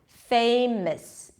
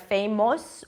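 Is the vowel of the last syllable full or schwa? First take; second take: schwa; full. First: The last syllable has a reduced schwa vowel. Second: The last syllable has a full vowel. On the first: The speaker calls it right. "It's just a schwa" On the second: The speaker calls it wrong. "you don't want to say something like famous or famos"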